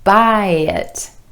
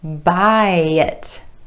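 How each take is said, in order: First: The words are linked with a gentle y sound. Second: The words are linked with a gentle y sound.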